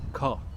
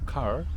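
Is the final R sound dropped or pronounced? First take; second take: dropped; pronounced. First: The final r sound is left out. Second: The final r sound is clearly pronounced. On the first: "en el inglés australiano no, solo tienen dos sonidos" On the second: "en el inglés americano hay tres sonidos"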